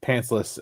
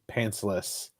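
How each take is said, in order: First: The word is yelled loudly. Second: The word is said at normal, softer volume.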